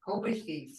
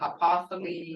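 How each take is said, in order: First: The name is said as Hubithi. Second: The name is said as Hapathali. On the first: The speaker calls it right. "his real name was Hubithi" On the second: The speaker calls it wrong. "I've heard Hapathali"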